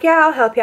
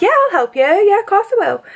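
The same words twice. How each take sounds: First: Said in the usual way. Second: High, sing-song helpful voice; Meg. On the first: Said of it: "I'm not gonna do Meg's accent now". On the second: Retold or imitated. Friend offering a drunk stranger help, high and eager mimicry. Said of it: "Meg's like".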